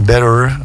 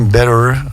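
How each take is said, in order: First: The middle T sounds like a soft D. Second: The same.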